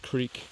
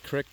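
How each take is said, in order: First: The vowel is long, as in 'seek'. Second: The vowel is short, as in 'sick'. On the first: "I say creek" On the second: "A crick takes on more of a uh, rural connotation"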